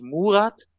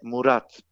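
First: Murat with stress on the first syllable, MU-rat; wrong stress. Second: Murat with stress on the last syllable, mu-RAT; right stress. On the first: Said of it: "es heißt auch nicht Murat". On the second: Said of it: "es heißt Murat". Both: Shown as a demonstration.

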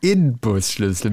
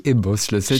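First: Inbusschlüssel with a distinct N; correct N version. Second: Imbusschlüssel with an M sound; wrong M version. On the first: Podcaster corrects the tool name, stressing the N. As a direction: say Inbusschlüssel with a clear N before B. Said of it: "mit einem N". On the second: Podcaster rejects the common tool name, with M. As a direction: say Imbusschlüssel with M before the B. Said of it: "der heißt nicht Imbusschlüssel". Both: Shown as a demonstration.

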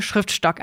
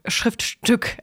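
First: "Schriftstock" said with a short o as in Stock; "Schriftstock", slip of the tongue with -stock in place of -stück; misread word. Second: "Schriftstück" said correctly with ü as in Stück; "Schriftstück", the fixed reading with -stück; corrected word. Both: Real, not acted. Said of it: "nicht Schriftstock".

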